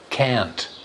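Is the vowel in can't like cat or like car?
cat. The vowel is short, like in cat. "American English is slightly different, They use the a sound for both"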